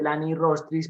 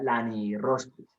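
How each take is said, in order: First: Said in the usual way. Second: Lani Rostris with every i sounded out; careful Latin pronunciation. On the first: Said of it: "fíjate que tiene dos I's en latín". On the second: Shown as a demonstration. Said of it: "todo debe pronunciarse".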